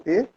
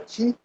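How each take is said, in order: First: The vowel is 'eh', as in bet. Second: The vowel is 'ee', as in see. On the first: This is the later Japanese name for the art. "não T" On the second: This is the older Ryukyu name for the art. "em Ryukyu, a pronúncia da arte era Ti"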